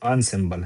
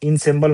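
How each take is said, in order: First: The first vowel sounds like 'on'. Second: The first vowel sounds like 'in'. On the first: The speaker calls it right. "ये अनसेम्बल है" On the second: The speaker calls it wrong. "इनसेम्बल नहीं पढ़ेंगे"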